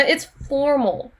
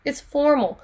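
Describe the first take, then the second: First: Slow emphatic. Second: Said in the usual way. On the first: Shown as a demonstration. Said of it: "teacher stresses answer".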